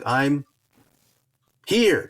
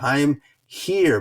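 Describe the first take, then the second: First: There is a long pause before 'here'. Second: There is a short pause before 'here'. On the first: The speaker calls it wrong. "That was a little bit too long of a pause" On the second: The speaker calls it right. "you could also say I'm here"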